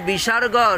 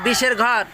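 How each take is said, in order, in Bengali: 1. এটা 'bisorgo' এর মতো শোনায়, একটা শব্দ। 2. এটা 'bisher ghor' এর মতো শোনায়, দুটো আলাদা শব্দ। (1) "আরে বিসর্গ।" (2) "কিসের বিষ? সাপের বিষ না ইঁদুরের বিষ?"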